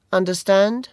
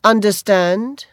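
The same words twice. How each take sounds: First: Light bully question. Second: Understand? said slower and louder, rising; slow, pressing repeat. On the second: Barry Cowan repeating the question, slow and louder. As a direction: lean on Understand? as a threat. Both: Acted. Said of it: "he repeated".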